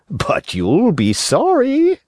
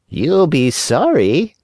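First: High, slow fox warning; sly fox. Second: High, slow cat echo. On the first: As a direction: warn slyly, drawn out. Fox warns. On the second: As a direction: parrot the fox like a cat. Cat echoes the fox. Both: Acted.

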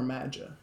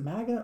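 First: Maga with a soft g, like a j; maga, second take, g turned into a j sound; soft-g pronunciation. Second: Maga with a hard g, as in "gap"; maga, first take, g kept hard; hard-g pronunciation. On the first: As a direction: say maga as MADGE-uh. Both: Shown as a demonstration. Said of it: "I really don't know how to say it".

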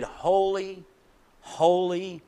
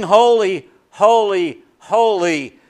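First: Hushed reverent "holy". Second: Proclaimed loud. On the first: Quiet opening of the hymn. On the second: Preacher voicing the angels' hymn to the congregation, ringing proclamation. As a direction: ring out each "holy" louder, falling at the end. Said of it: "They sing". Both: Shown as a demonstration.

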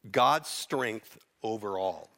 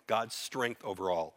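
First: Slow, weighty, stress on God's; slow emphasis. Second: Said in the usual way. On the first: Shown as a demonstration. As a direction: lay each word down slowly, God's first.

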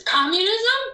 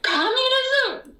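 First: Much higher and louder, rising Communism?; incredulous shout. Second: Even higher, slow, falling Communism?; berserk repeat. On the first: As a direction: fling out Communism? in disbelief. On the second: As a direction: drag out Communism? with a falling outraged tone. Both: Retold or imitated. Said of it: "I went berserk".

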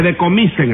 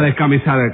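First: «decomisen», sin s antes de la c y con o; palabra corregida. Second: «descamisar», con s antes de la c y a tónica final; palabra equivocada. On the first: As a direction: di «decomisen» como corrección: de-co-mi-sen. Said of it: "No le van a descamisar". («decomisen», acento en «mi») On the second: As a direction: di «descamisar» como el error que corriges. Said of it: "que le decomisen el drum". («descamisar», des-ca-mi-sar) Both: Shown as a demonstration.

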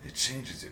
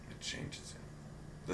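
First: Said in the usual way. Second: Slow ominous whisper. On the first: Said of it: "repeated as a whisper". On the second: Acted. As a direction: breathe it out slowly. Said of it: "whispered repeat".

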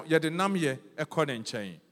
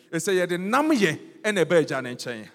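First: Said in the usual way. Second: Louder, nam stressed hard; emphatic repeat. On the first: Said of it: "repeated key phrase". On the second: Shown as a demonstration. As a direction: hammer nam home to the congregation. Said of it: "climactic repeat of phrase".

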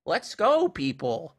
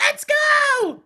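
First: High, loud mom impression; imitated mom rallying. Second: Put-on very high, loud child's hype yell; imitated little kid shout. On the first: Imitating his mom's hype voice memo, rallying mom. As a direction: call it out high, then drop on the last word. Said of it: "it's, like, his mom going". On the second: Imitating a seven-year-old's voice memo, kid's shout. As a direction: shriek it like a hyped-up small kid. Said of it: "his kid just going".

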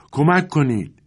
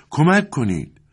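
First: A high, louder call for help from the yard; cry for help. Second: High, louder call, a touch far off; cry for help again. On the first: A voice in the yard calls for help, shouting. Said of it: "صدایی در حیاط پیچید". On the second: The same voice in the yard cries out again, shouting. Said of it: "دوباره این صدا بلند شد". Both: A narrator's reading.

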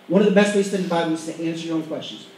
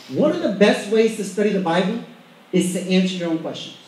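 First: Brisk, lower-pitched run-through without a pause; quick repeat. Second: Measured emphasis. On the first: Preacher repeating a study tip to the congregation, quick and lower. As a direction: rattle the point off in one breath. Same point repeated faster. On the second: Preacher giving the congregation a study tip, measured and emphatic. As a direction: lay the point out in two unhurried parts. Key point stated, then repeated. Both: Shown as a demonstration.

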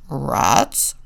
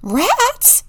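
First: Low grunted pig question; low, gruff pig voice; grunting. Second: Very high, loud little bunny squeal; squeaky bunny surprise; excited squeal. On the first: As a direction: grunt it in disbelief. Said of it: "grunted Walter". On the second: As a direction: squeal it as a delighted question. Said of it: "squealed the bunnies". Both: A narrator's reading.

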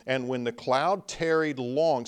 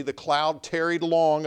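First: Said in the usual way. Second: Long leaned on, louder and higher; stress on long. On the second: Shown as a demonstration. Preacher pressing the point on the congregation, stressing long. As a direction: lean hard on the word long. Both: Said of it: "see, the cloud tarried long".

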